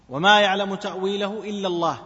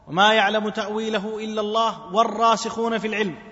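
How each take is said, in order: First: The phrase stops with a pause after Allah. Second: Allah runs on without pause into the next words.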